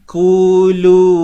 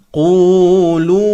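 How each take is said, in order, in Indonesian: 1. Konsonan pertama tipis, seperti bunyi k biasa. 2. Konsonan pertama tebal, dalam di tenggorokan. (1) "Kalau awal-awal dah bunyi ku, ha lemah lah bunyinya nanti" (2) "huruf Qaf kita te tebalkan"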